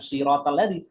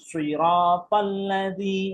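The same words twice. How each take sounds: First: The first consonant is light and thin. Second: The first consonant is heavy and thick. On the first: The speaker calls it wrong. "bukan sirotol ladzi" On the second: The speaker calls it right. "shotnya harus kelihatan lebih tebal"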